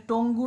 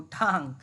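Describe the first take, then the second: First: টঙ্গু said with two syllables and a final u; the mistaken টঙ্গু, said loudly; wrong pronunciation. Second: টাং as one clipped syllable ending in ng, lower pitch; the right টাং, short and lower; correct pronunciation. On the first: Teacher warning students not to say টঙ্গু. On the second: Teacher giving students the right টাং. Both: Shown as a demonstration. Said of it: "এটা টঙ্গু নয় কিন্তু".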